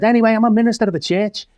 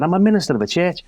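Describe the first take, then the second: First: High, fast announcement of a surprise; spring the surprise on the crowd, quick and high; excited reveal. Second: Fast, raised repeat of the punchline; repeated reveal. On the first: Shock reveal to hostile pub crowd. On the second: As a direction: hammer the reveal home again, quickly. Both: Retold or imitated.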